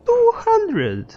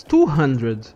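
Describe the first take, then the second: First: Very high, louder falsetto squeal; exaggerated high-pitched exclamation; mock outrage. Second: Said in the usual way. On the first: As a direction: squeal the price in comic disbelief.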